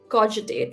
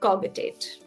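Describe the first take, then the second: First: The g is soft, like a j. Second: The g is hard, like in cog. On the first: The speaker calls it right. "the right way to pronounce this is cogitate" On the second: The speaker calls it wrong. "not cogitate"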